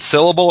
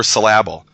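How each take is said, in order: First: Syllable with the stress on SYL; syllable, weight on the opening syllable; stress on first syllable. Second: Syllable misstressed on LAB; syllable, deliberately stressed on the second syllable. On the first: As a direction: say syllable as SIL-uh-bul, first syllable punched. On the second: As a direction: say syllable as suh-LAB-ul, punching the middle. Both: Shown as a demonstration. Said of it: "what to emphasize in the word".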